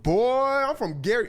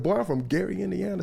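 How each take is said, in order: First: the singer. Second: Lightly voiced retort, close to the storyteller's own pitch; a toned-down take on the star's tough voice; the singer. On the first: Retold or imitated. Storyteller playing the singer standing up to his people, mock-tough impersonation. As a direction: stretch out the opening word, loud and high. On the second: Storyteller replaying the singer's hometown boast, lightly mock-tough. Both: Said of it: "the singer's voice can get pretty deep".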